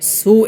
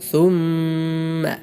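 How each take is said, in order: First: The word begins with a plain s sound. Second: The word begins with a soft th sound. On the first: The speaker calls it wrong. "സീനായി ഓതാറുണ്ട്. ... തെറ്റാണ്" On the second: The speaker calls it right. "സ ആണ്, സീനല്ല"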